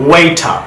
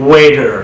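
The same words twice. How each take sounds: First: ওয়েটার as "WAY-tah", crisp T; British "waiter", aspirated T in ওয়েটার. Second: ওয়েটার as "WAY-der"; American "waiter", flapped middle in ওয়েটার; American soft D. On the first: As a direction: say ওয়েটার with a clear British T and no final R. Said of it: "ব্রিটিশরা টি এর মতো sound করছে". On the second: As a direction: say ওয়েটার with T turned to D and an R ending. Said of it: "ডি". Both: Shown as a demonstration.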